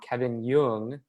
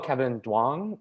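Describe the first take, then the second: First: The surname begins with a Y sound. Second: The surname begins with a hard D sound. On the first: This is the family's own way of saying the name. The speaker calls it right. "which is the correct pronunciation" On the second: This is how other people usually say the name. The speaker calls it wrong. "people would just be like"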